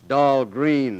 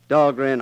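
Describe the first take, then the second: First: The second syllable has a long 'ee' vowel. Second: The second syllable has a short 'e' vowel. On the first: The speaker calls it wrong. "they mispronounce it down there. Dahlgreen, they say" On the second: The speaker calls it right. "They pronounce it right at Annapolis"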